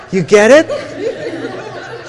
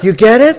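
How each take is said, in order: First: Slow, laughing through the words; laughing question. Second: Louder, pressing the point with a rise; loud rising question. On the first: Speaker asking the audience while still laughing. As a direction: laugh it out as you ask. Laughing at his own story. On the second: Speaker pressing the audience, louder and rising. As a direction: make sure they got it. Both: Real, not acted.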